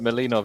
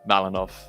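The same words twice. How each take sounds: First: The name is pronounced in a softer way. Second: The name is pronounced in a harsher way. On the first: "is a bit softer" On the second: "more aggro"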